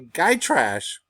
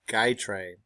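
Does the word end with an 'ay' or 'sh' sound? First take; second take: sh; ay. First: The word ends with a 'sh' sound. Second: The word ends with an 'ay' sound.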